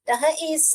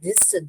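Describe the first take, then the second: First: The first two letters are sounded separately. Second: The first two letters blend into one sound. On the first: The speaker calls it wrong. "अगर हम गलत गलत पढ़ ऐसे एक एक sound करेंगे" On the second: The speaker calls it right. "हम इसे क्या से पढ़ते हैं"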